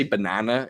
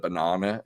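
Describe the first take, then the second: First: Banana with American flat middle A. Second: Banana with long British AH. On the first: Host refusing an Americanism, American pronunciation of banana. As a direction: say banana as Americans do, buh-NAN-uh. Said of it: "never say banana instead of banana". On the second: Brit holding on to his own word, British pronunciation of banana. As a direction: say banana the British way, buh-NAH-nuh. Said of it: "instead of banana". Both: Shown as a demonstration.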